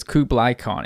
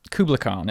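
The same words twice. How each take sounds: First: "Kublai" ending like "eye"; "Kublai" with a clear final "eye" diphthong; KUBLAI pronunciation. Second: "Kubla" ending in an unstressed "uh"; "Kubla" with a short, weak final vowel; KUBLA pronunciation. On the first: Shown as a demonstration. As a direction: say "Kublai" as KOO-bligh. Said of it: "K U B L A I". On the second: Real, not acted. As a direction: say "Kubla" as KOO-bluh. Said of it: "I might be mispronouncing it".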